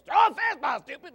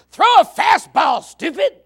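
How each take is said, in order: First: A high shout that falls away at the end; kid's copied yell. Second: High, loud yell from the stands, drawn out; mock yell at the pitcher. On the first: Retold or imitated. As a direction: holler it like the kid copying dad. Kid imitates the parent's yell. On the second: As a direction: bark it at the pitcher like a fan. Parent yelling at the pitcher.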